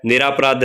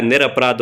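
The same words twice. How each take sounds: First: निरापराध with a long आ after र, read as the wrong form; wrong form shown. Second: निरपराध with a short अ after र, read as the correct form; correct form shown. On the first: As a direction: say निरापराध as niraa-paraadh, stretching the आ. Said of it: "निरापराध नहीं होता है". (गलत रूप: निरापराध, र के बाद लंबा आ) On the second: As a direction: say निरपराध as nir-aparaadh, keeping it short. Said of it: "निरपराध होता है". (सही रूप: निरपराध, र के बाद छोटा अ) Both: Shown as a demonstration.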